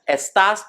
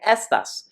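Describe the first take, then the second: First: The stress is on the second syllable. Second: The stress is on the first syllable. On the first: It means you are. "the accent to stress the second syllable" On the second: It means these. "without the accent to stress the second syllable, we're saying estas"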